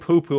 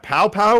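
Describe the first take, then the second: First: The vowel sounds like 'oo' as in too. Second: The vowel sounds like 'ow' as in cow. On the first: "or are we going to say poo poo" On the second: "Is that pow pow"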